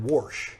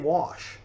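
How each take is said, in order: First: It is said in a Missouri accent. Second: It is said in a general American accent.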